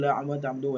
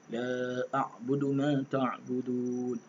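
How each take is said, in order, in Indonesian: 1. Dibaca dengan cepat dan tergesa-gesa. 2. Dibaca dengan perlahan dan hati-hati. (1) "dia baca laju tu" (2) "baca dalam keadaan lambat, baca dalam keadaan bertajwid"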